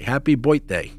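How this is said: It is said in a thick New York accent. It is said as a joke. "in my thickest New York accent"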